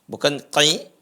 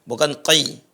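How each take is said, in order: Both takes have the same delivery.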